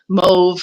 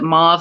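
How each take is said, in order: First: The vowel sounds like the one in rove. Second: The vowel sounds like the one in mod. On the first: "mauve like rove" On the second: "mauve like mod"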